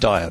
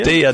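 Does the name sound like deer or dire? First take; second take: dire; deer. First: The name sounds like the word dire. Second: The name sounds like the word deer. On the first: The speaker calls it wrong. "not dire" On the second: The speaker calls it right. "Deer, not dire"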